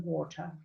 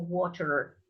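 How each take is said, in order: First: Water with an uh ending; water the British way; British water, R dropped. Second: Water with an er ending; water the American way; American water, R sounded. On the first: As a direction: leave the R off water. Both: Shown as a demonstration. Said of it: "or water if you want".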